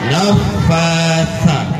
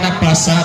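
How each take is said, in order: First: The middle consonant is a breathy th sound. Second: The middle consonant is a plain s sound. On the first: The speaker calls it right. "Yang benar nafasa. Lo angin keluar nenek di ujung lidah" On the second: The speaker calls it wrong. "Kalau ada yang baca nafasa itu salah"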